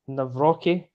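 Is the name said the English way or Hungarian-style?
English. The name is said plainly, without a ts sound.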